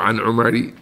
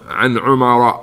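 First: The name ends with an 'i' vowel. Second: The name ends without an 'i' vowel. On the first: The speaker calls it wrong. "Don't say عن عمر" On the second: The speaker calls it right. "عن عمر, because it's ممنوع من الصرف"

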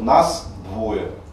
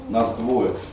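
First: The final consonant of нас is a voiceless s. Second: The final consonant of нас is a voiced z. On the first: The speaker calls it wrong. "Это неправильное ее произношение" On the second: The speaker calls it right. "у нас «з» перед «д» должно появиться"

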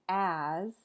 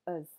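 First: The word has its full vowel. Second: The word has a reduced schwa vowel. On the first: "the full form" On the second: "you might just hear uz"

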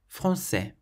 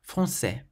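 The two takes are said the same way.

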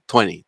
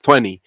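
First: The word is said with a British accent. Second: The word is said with an American accent. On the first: "British pronunciation" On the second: "The American pronunciation usually is"

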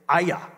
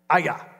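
First: The name is said as two syllables, ah-yah. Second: The same.

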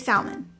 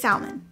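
First: It is pronounced the Southern US way. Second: The same.

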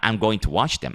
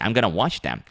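First: The words 'going to' are said in full. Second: The words 'going to' are reduced to 'gonna'.

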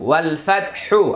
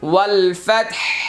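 First: The last word ends with a short vowel. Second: The last word stops on a bare consonant.

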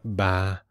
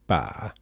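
First: The vowel is said with a breathy voice. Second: The vowel is said with a creaky voice. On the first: It means lady. "If I make it breathy, like ba" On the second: It means at random. "if I use creaky voice, I can say ba"

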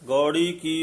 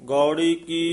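Both takes have the same delivery.

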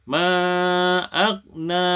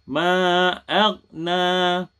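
Both takes have the same delivery.

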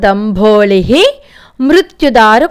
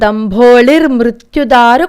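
First: The ending is said 'hi' with a stop after it. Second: The ending links as 'r' into the next word.

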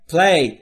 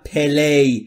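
First: The p and l are joined without a vowel. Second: An extra vowel is heard between p and l. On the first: The speaker calls it right. "بین p و l صدایی وجود نداره" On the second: The speaker calls it wrong. "نگفتم play"

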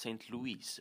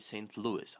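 First: It is pronounced with a French pronunciation. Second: It is pronounced with an American pronunciation. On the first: "The French may pronounce St. Louis as" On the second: "but in the US, you would say"

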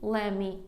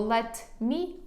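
First: The two words merge into one reduced word. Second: Both words are said in full.

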